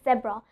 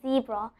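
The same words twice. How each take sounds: First: The word is said in a British accent. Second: The word is said in an American accent. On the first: "if you are speaking the British accent" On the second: "if you are speaking the American accent"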